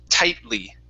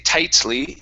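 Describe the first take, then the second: First: The T is stopped and runs into the L. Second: The T is fully pronounced and released. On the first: The speaker calls it right. "it's tightly. This is called a stop T" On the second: The speaker calls it wrong. "I don't say tightly"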